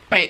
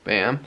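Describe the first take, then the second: First: It is said loudly and forcefully. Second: It is said softly and weakly.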